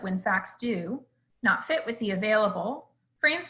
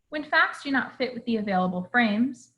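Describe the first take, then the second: First: A pause breaks up the words do not fit. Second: The phrase is said without a break inside. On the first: The speaker calls it wrong. "the phrase do not fit is grammatically connected, and so dividing it up ends up sounding confusing" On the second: The speaker calls it right. "This is the correct way of saying this"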